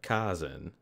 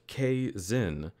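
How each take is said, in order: First: The name is said with a soft A. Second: The name is said with a hard A. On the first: "with a soft A" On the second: "pronounced with a hard A"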